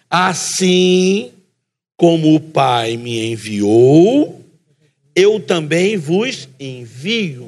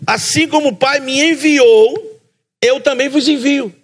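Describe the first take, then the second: First: It is said very slowly. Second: It is said at normal speed.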